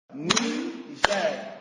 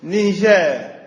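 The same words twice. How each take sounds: First: "Niger" split as "Ni-ger", soft and separated; syllables clapped out. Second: Said in the usual way. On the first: Shown as a demonstration. Teacher clapping out "Niger" syllable by syllable for the class. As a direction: say "Niger" in two slow, separate beats. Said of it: "tapiez des mains à chaque syllabe". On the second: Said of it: "Je vais vous lire une liste".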